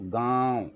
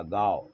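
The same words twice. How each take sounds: First: गाँव with a long nasalised aa; nasal vowel. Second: गाँव said as plain gaav; गाँव with an oral long aa; without nasal. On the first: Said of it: "तो ऊपर चांद बिंदी में". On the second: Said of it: "ऊपर चांद बिंदी". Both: Shown as a demonstration.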